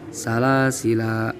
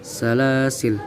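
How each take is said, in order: First: The final la vowel is held long. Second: The word ends on l with no vowel. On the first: "boleh dibaca panjang" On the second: "boleh dibaca sukun"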